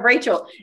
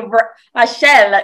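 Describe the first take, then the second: First: The name is pronounced with English sounds. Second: The name is pronounced with French sounds. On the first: "instead of Rachel" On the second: "I do speak French like you do, and I so badly wanted to say Rachel"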